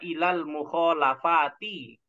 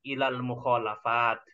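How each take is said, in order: First: The last word ends with a final i vowel. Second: The last word ends on a bare t sound. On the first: The case ending is read out in full. "kalau saya jelaskan ya Robnya, maka dibaca ilal mukholafati" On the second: The reader stops at a pause. "kalau ada wakof kita matikan hurufnya"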